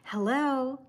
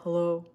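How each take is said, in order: First: The greeting sounds warm and polite. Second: The greeting sounds blunt and unfriendly. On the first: The speaker calls it right. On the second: The speaker calls it wrong.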